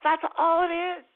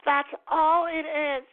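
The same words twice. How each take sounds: First: Higher, louder put-on voice; high mock voice. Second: Higher, louder, stretched out slowly; slow high mock voice. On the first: Mock character summing up for listeners, high loud voice. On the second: Mock character insisting to listeners, slow and high. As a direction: drag the words out slowly, high. Repeats line slower.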